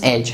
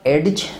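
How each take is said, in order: First: The d sound is silent. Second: The d sound is pronounced. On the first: The speaker calls it right. "this is age" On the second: The speaker calls it wrong. "it's not age"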